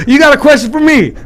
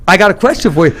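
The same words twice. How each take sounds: First: Much higher, punchy mimicked comeback; Brad. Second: Said in the usual way. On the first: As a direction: imitate a buddy's insistent back-and-forth routine. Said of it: "He goes".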